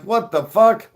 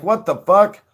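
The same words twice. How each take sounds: First: Higher, louder stunned "What the fuck?"; shocked cops. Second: High, loud startled "What the fuck?"; shocked cops. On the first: Cops seeing the empty field, louder shocked cry. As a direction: bigger disbelieving outburst. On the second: Cops watching Josh run off, loud shocked outburst. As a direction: blurt it out as the stunned cops. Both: Retold or imitated. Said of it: "And they're like".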